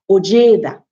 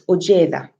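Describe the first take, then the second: First: The second high tone stays level and high. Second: The second high tone is lower and falling. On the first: The speaker calls it wrong. "So it's not ojeda" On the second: The speaker calls it right. "it has a sort of falling pitch. It's not as high as the first high tone"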